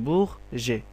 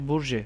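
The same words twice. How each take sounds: First: বুরজে with the R as a throaty kh sound; French throaty R. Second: বুরজে with a clearly sounded R before the second syllable; spelled-out R. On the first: Teacher giving learners the French word, throaty kh-like R. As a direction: say বুরজে as "bukh-zhe", R from the throat. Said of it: "তাহলে হয়ে গেল বুরজে আর কি". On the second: Teacher putting the syllables together, R clearly sounded. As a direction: say বুরজে with an audible Bengali R. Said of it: "তাহলে হয়ে গেল বুর". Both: Shown as a demonstration.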